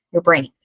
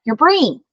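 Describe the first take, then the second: First: Said in the usual way. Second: High, loud excited answer of brain; loud and proud. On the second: Shown as a demonstration. Teacher modeling a loud proud answer to the class, excited. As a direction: cheer out brain like a proud kid. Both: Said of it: "Tell me, loud and proud".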